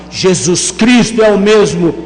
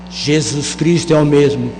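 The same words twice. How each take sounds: First: It is said more loudly. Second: It is said at normal volume.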